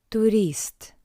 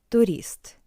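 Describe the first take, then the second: Both takes have the same delivery.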